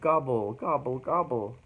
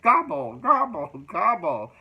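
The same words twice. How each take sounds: First: It is said in a kind, compassionate tone. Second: It is said in a mocking, ridiculing tone. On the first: The person is treated with kindness. The speaker calls it right. "I like the first way better" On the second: The person is being made fun of. The speaker calls it wrong. "I suppose we could read it this way"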